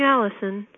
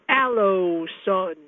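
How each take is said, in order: First: The middle syllable sounds like 'lih'. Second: The middle syllable sounds like 'loh'. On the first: The speaker calls it right. "Instead of saying Allison" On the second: The speaker calls it wrong. "He mispronounces it like this"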